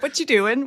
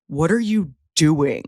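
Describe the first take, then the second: First: It sounds light and casual, like a friendly greeting. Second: It sounds stern and interrogating, like an accusation. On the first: It is just a way of saying hello. The speaker calls it right. "that's just say how you say hello" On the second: The person is being questioned about what they are up to. The speaker calls it wrong. "the tone you use when you say "What you doing"? Because if you say it like"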